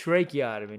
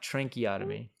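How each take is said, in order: First: The word is said without an n sound. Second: The word is said with an n sound. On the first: The speaker calls it right. "I'm saying it with no N" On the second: The speaker calls it wrong. "You're saying it with an N"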